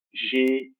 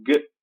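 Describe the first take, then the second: First: "G" named as Portuguese "gê"; Portuguese letter name. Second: "G" as a short hard g, "guh"; bare phoneme. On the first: Teacher naming consonants for pupils, Portuguese letter name. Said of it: "eu pronunciei agora em português". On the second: Teacher showing pupils the consonant sound, bare phoneme. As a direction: give "G" as a sound, not its name. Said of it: "O fonema". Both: Shown as a demonstration.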